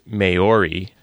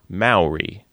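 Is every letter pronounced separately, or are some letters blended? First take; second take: separately; blended. First: Every letter is sounded out separately. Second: Some letters blend together rather than sounding separately. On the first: The speaker calls it wrong. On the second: The speaker calls it right.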